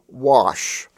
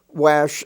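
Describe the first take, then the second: First: The vowel does not rhyme with ash. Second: The vowel rhymes with ash and cash. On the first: This is how the word is really said. The speaker calls it right. "Wash is really wash" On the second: This is how the spelling suggests it. The speaker calls it wrong. "we don't have a word in English pronounced wash"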